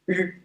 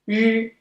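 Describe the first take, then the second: First: The r is pronounced as the English r. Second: The r is pronounced as the Chinese r. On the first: "In English, letter R pronounced r" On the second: "In Chinese, it's pronounced r"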